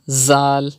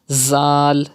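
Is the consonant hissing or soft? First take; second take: hissing; hissing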